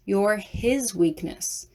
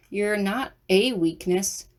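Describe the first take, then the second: First: Slow, with weight on "his"; stress on HIS. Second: Slow, with "a" said as a full "ay"; single out the word "a", drawn out slowly; stress on A. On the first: Realising what he truly meant, stress on "his". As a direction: land deliberately on the word "his". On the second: Correcting his words as it clicks, stress on "a". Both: A narrator's reading.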